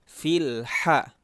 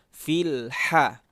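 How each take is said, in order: Both takes have the same delivery.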